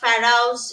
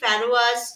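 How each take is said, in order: First: The word ends with an 'ouse' sound, fa-rouse. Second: The word is said with three syllables, fa-ro-as. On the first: "যেগুলো কিন্তু ভুল উচ্চারণ" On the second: "যেগুলো কিন্তু ভুল উচ্চারণ"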